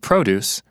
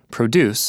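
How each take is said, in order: First: The stress is on the first syllable. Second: The stress is on the second syllable. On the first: It is a noun meaning fruit and vegetables. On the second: It is a verb meaning to make or grow.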